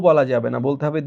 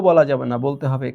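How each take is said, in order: The two takes are said the same way.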